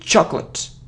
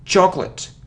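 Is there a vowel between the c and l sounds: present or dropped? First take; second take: dropped; dropped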